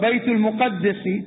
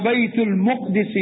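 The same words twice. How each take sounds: First: The m has a u vowel and a doubled d. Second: The m has an a vowel, no doubled d.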